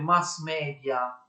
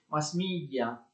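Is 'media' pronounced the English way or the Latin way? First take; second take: Latin; English. First: Media is pronounced with a Latin-style pronunciation. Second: Media is pronounced with an English pronunciation. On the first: The speaker calls it wrong. "non ha proprio senso dire mass media" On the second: The speaker calls it right. "L'espressione quindi inglese va pronunciata in inglese"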